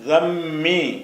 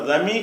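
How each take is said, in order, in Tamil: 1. ம் ஒலி நீட்டி, இரட்டித்தது. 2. ம் ஒலி குறுகியது, ஒற்றையானது. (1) "தம்மி அழுத்தி சொல்லணும்" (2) "தமி என்று சொல்லாமல்"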